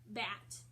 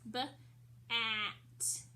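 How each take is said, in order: First: Said in the usual way. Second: "B-at" split into buh, then at; sounded out. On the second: Shown as a demonstration. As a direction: break "B-at" after the b, with a gap. Teacher breaks word into sounds.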